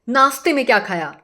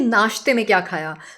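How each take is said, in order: First: The word naashte is said with an 's' sound. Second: The word naashte is said with an 'sh' sound. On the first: This is the regional way of speaking. The speaker calls it wrong. "Rajasthani और MP में हम श नहीं हम स बोलते हैं" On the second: This is the standard way of speaking. The speaker calls it right. "लेकिन असली में होता है कि"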